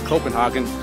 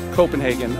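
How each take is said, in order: First: It is said with the German pronunciation. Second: It is said with a non-German pronunciation. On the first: The speaker is German. "If you said Copenhagen, they knew you were German" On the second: The speaker is not German. "you're in a little bit of trouble"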